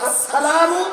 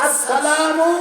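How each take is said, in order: Both takes have the same delivery.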